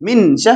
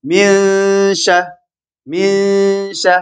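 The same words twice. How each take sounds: First: Min sha with a crisp, fully spoken n; wrong way, clear n. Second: Min sha with the n hidden and nasalised into sh; hidden n before sh. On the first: Teacher showing the wrong clear n in min sha. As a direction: say the n of min sharply, as not to do it. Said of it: "min sha hin jennu". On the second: Teacher showing students ikhfa on Min sha. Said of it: "harfi ikhfaati irraayi". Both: Shown as a demonstration.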